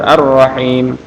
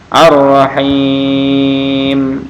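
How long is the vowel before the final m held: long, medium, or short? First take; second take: short; long. First: The vowel before the final m is held briefly. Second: The vowel before the final m is held very long. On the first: "atau dua harokat" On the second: "enam harokat boleh"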